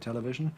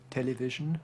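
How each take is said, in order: First: An unstressed syllable has a reduced, weak vowel. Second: An unstressed syllable has a clear 'i' vowel. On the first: This is the modern pronunciation. "where nowadays we might say television" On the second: This is an old-fashioned pronunciation. "you can hear her using I in a word like television"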